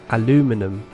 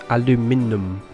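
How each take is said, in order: No difference in how they are said.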